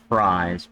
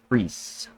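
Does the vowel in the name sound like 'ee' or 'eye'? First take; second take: eye; ee. First: The vowel sounds like a long 'eye'. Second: The vowel sounds like a long 'ee'. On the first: The speaker calls it wrong. "it's not Fries" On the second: The speaker calls it right. "you pronounce the long E in this instance in German"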